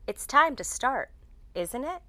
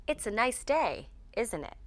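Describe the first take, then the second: First: "isn't it?" rising high at the end; checking question with "isn't it" going up; upward intonation. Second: "isn't it" falling at the end; small-talk comment, "isn't it" going down; downward intonation. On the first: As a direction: raise the pitch on the tag "isn't it". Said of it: "We use upward intonation". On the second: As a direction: drop the pitch on the tag "isn't it". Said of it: "We use downward intonation". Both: Shown as a demonstration.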